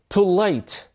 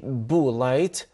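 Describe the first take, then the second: First: The p is said with a puff of air. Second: The p is said without a puff of air. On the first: The speaker calls it right. "There is air comes out of your mouth again" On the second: The speaker calls it wrong. "We don't say polite"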